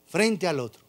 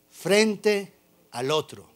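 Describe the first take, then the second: First: Said in the usual way. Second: Frente al otro said slowly, stressing frente; slow emphasis. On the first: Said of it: "repeat of frente al otro". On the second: Shown as a demonstration. Pastor stresses the angels facing each other, slowly. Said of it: "frente al otro repeated".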